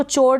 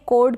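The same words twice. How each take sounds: First: चोर misread as "chord" with a "ch"; wrong pronunciation with CH. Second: कॉर्ड said as "kord"; correct silent-H pronunciation. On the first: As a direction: start चोर like "chore". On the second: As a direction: start कॉर्ड on a hard "k". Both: Shown as a demonstration. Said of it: "इसको चोर ना पढ़ें".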